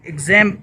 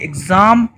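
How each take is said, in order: First: The word is said in an American accent. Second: The word is said in a British accent. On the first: "American pronunciation" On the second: "British accent में जैसे हम pronounce करते हैं"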